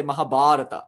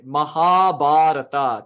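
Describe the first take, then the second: First: Said in the usual way. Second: Mahabharata drawn out slowly, long ha and long bha; long syllables. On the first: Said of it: "typically we say". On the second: Shown as a demonstration. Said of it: "there are two long syllables".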